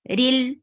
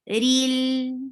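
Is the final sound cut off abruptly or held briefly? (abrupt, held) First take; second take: abrupt; held. First: The final sound is cut off abruptly. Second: The final sound is held a little longer. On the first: The speaker calls it wrong. "I cannot stop like this" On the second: The speaker calls it right. "I have to give a little time"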